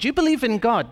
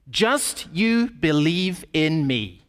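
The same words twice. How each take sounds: First: Said in the usual way. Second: "Just you believe in me" slow, leaning on "me"; stress on me. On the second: Acted. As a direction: drag out "Just you believe in me", landing hard on "me". Pastor voicing Jesus' claim.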